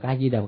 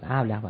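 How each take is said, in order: First: All four syllables are said clearly. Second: It is rushed and the second syllable is swallowed.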